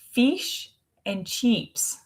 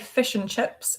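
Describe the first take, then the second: First: It is said in an imitated Australian accent. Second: It is said in the speaker's own accent. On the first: "and they say fish and chips" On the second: "We say fish and chips"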